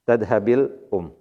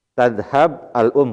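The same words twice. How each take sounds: First: "Tadhabil um" with a light kasra i joining b to l; correct linked form. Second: "Tadhab al-um" said slowly with the b left dead before al; awkward wrong form. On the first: Teacher gives the easy correct reading to the class. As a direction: glide smoothly through "Tadhabil um". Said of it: "Paling ringan". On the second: Teacher demonstrates the awkward form for students, slow. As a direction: slowly show the clumsy "Tadhab al-um" with no linking vowel. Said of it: "kan gak enak". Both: Shown as a demonstration.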